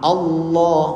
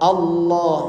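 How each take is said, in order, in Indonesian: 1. Bunyi l diucapkan sebagai l yang jelas. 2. Bunyi l diucapkan sebagai l yang jelas.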